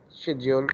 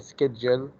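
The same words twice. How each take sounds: First: The word is said with a British pronunciation. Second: The word is said with a non-British pronunciation. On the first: "as the British say" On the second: "We can say schedule"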